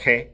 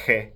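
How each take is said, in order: First: It starts with a rough fricative at the back. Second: The same.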